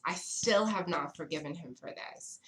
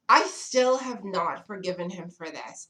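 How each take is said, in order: First: Said in the usual way. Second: "I still have not forgiven him for this." said louder, as an emphatic outburst. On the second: Real, not acted. Storyteller to her viewers, still annoyed, said louder. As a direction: burst out with it.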